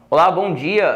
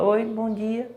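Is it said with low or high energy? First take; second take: high; low. First: It is said lively, with lots of energy. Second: It is said flatly, with no energy.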